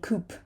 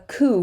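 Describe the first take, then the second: First: The word ends with a p sound. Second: The word ends in a vowel, no p sound. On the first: The speaker calls it wrong. "We're not going to say coop" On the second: The speaker calls it right. "It's a coup"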